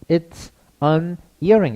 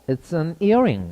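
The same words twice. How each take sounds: First: Each word is said separately, not linked together. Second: The words run together, linked into one unit. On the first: The speaker calls it wrong. "이렇게 안 가고" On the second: The speaker calls it right. "이렇게 얘기를 해줍니다. 그래서 여기 좀 붙어서 앞에 붙어서 나요"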